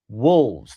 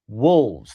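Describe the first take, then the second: First: The L sound is clearly pronounced. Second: The L sound is clearly pronounced.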